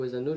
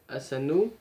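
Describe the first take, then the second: First: Asano with a z sound, a bit quicker; second try at the name. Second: Asano with a sharp s, rising; Asano, s as in sun, tune going up; first try at the name. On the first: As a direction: Asano said azano, z between the vowels. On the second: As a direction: Asano said with a clear s sound, ending up. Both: Shown as a demonstration. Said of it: "je ne sais plus comment ça se prononce".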